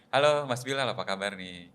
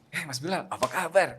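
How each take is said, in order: First: It is said flat, without expression. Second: It is said lively, with expression.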